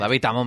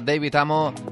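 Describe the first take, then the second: First: The name is pronounced in a plain Spanish way. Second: The name is pronounced in a showy English style. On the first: It is the way everyone knows the name. The speaker calls it right. "Como lo conoce todo el mundo" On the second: It sounds pretentious. The speaker calls it wrong. "porque si no queda muy flipado"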